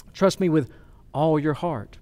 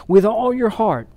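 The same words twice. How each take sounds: First: Said in the usual way. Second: WITH ALL YOUR HEART lifted higher and firmer; emphatic repeat. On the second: Real, not acted. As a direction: drive home "all your heart" with raised pitch. Preacher repeats verse for emphasis.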